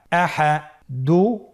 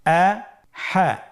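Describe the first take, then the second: First: "আহা" run together as one word; syllables joined. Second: "আহা" very slowly in two separate syllables; syllables apart. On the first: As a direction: blend both syllables of "আহা" without a break. ("আহা" একসাথে মিলিয়ে) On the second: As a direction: split "আহা" with a clear pause between syllables. ("আহা" ভেঙে ভেঙে ধীরে) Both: Shown as a demonstration. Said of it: "এভাবেও পড়তে পারেন".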